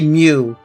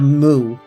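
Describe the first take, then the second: First: The word is said with a y-glide, like 'mew'. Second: The word is said with a plain vowel, like 'moo'. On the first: This is how others in the game say it. "they say Mew instead of Moo" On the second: This is how the speaker expected it to be said. "instead of Moo"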